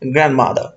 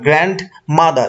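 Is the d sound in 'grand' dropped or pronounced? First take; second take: dropped; pronounced. First: The d in 'grand' is dropped. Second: The d in 'grand' is clearly pronounced. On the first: The speaker calls it right. "এই গ্র্যান্ড ডিটা থাকছে না" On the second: The speaker calls it wrong. "এরকম না"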